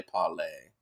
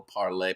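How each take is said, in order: First: "parlay" with the r dropped, pah-lay; put-on r-less "parlay"; playful accented parlay. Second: Said in the usual way. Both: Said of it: "That's better than the German accent".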